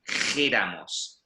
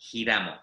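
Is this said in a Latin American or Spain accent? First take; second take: Spain; Latin American. First: It is said with a Spain accent. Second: It is said with a Latin American accent.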